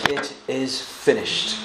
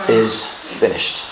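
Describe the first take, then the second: First: "It is finished" said slowly and much softer; slow soft quote. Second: "is finished" drawn out slowly and low; slow solemn quote. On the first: Preacher voicing the last cry from the cross, slow and soft. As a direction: draw out "It is finished" quietly. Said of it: "cried out with a voice". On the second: Preacher voicing Jesus' last word, slow and low. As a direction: stretch out "is finished". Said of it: "he said". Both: Shown as a demonstration.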